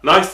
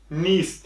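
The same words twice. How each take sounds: First: "nice" said like "nais", the mistaken reading of niece; wrong reading. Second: "niece" said with a long ee, like "nees"; correct niece. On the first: Teacher showing students the wrong "nais" reading, slowly. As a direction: read "nice" with an ai sound, the error to avoid. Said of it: "nice diye okuyanlar yanlış". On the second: Teacher showing students "niece" read as "nees". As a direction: stretch the ee in "niece". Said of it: "niece diye okunuyor". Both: Shown as a demonstration.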